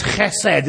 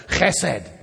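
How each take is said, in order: First: Said in the usual way. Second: Chesed with a throaty rasped ch, like a Scottish loch; Scottish guttural chesed. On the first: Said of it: "a great word to say with a, a Scottish accent". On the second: Shown as a demonstration. Preacher showing the congregation the Hebrew word, throaty Scottish ch. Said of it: "a Scottish accent".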